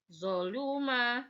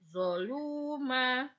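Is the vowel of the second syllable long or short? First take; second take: short; long. First: The second syllable has a short vowel. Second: The second syllable has a long vowel. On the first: "nggak ada yang panjang" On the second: "lu-nya dibaca panjang"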